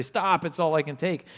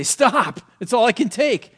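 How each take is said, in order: First: Said in the usual way. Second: Louder and higher, crying out to make it stop; overwhelmed cry to stop. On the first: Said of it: "It's like us trying to stand up and say". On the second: Retold or imitated. Preacher voicing the disciples shouting at the storm, loud and higher. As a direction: call out as if the storm is too much. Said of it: "they stood up to say".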